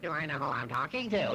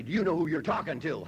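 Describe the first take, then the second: First: Sneering mock echo of his words; mocking mimicry. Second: Lightly voiced, self-important challenge; proud comeback. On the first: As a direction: throw his line back mockingly. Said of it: "She'd mimic me as only the way them Irish could do it". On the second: Drunk husband challenges his wife, mock self-important. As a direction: puff up and throw the question back at her. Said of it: "Boy, that used to get her right there".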